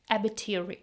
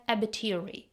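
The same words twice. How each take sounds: First: The T in 'bit' is dropped, said fast. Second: The same.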